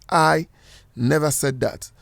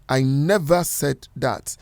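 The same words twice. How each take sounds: First: The word "I" carries the main stress. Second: The word "never" carries the main stress. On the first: Someone else said it. "If you are stressing the word I" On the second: It flatly denies ever saying it. "If you're stressing the word "never,""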